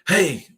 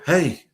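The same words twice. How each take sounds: First: It is said loudly. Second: It is said a little louder.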